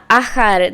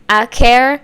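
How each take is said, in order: First: The name is said in an attempted Thai-style pronunciation. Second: The name is said in an English-accent pronunciation. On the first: "this is the one that was really difficult for me to do" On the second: "which is how I would say it in my accent, does not sound right"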